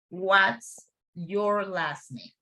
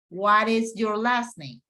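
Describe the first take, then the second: First: The word is is contracted to 's. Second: The word is is said in full.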